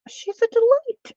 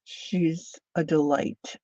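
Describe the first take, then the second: First: "She's a delight" sung out much higher and louder; gushing delight. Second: Said in the usual way. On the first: Shown as a demonstration. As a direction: squeal it with joy. Repeats the compliment twice.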